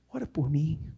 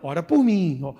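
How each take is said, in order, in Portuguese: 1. É dito com um tom humilde e suplicante. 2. É dito com um tom desdenhoso e despreocupado. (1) "Ele pode ter falado isso com humildade" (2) "Ou então"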